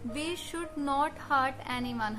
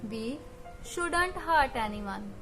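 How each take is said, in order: First: The negative is said in full as two words. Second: The negative is contracted into one word.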